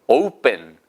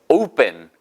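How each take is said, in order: Both takes have the same delivery.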